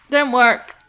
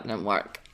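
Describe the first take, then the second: First: Said in the usual way. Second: Much lower, softer flat-out mutter; deflated mutter. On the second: Real, not acted. Gamer muttering that her plan failed, deflated and low. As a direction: let it drop low and quiet.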